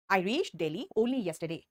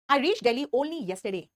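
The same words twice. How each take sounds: First: "I reached Delhi only yesterday" very slow and a bit quieter; slow, slightly softer reading. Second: "I reached Delhi only yesterday" read very slowly; slow model read; slow dictation. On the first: Teacher repeating the sentence slowly for copying. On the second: Teacher reading the example to the class, slowly. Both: Shown as a demonstration. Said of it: "Only इस yesterday को qualify".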